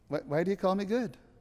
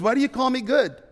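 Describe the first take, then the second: First: There is a short pause after the first word. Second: It is said straight through without a pause.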